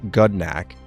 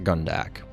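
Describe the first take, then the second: First: The d sound comes before the n. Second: The n sound comes before the d. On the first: The speaker calls it right. "Correction, and I quote, Gudnak" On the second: The speaker calls it wrong. "not Gundak"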